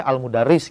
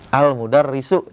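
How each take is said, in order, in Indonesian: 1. Kata ini berakhir dengan huruf s tanpa vokal. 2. Kata ini berakhir dengan vokal u.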